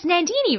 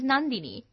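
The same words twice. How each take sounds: First: The name is said with an Australian accent. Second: The name is said with an Indian accent.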